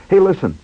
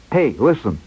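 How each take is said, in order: First: Higher, eager attention-grabber; all excited. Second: Said in the usual way. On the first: Retold or imitated. Schwartz wants to tell his story, all excited. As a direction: imitate a friend bursting with news. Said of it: "he was all excited". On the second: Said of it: "He, he was all excited".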